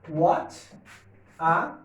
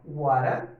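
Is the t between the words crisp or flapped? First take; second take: crisp; flapped. First: The t is crisp and the words separated. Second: The t is a flap, linked like r. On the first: The speaker calls it wrong. "Meu Deus, que pronúncia horrorosa" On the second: The speaker calls it right. "eu vou ter um T com som de R"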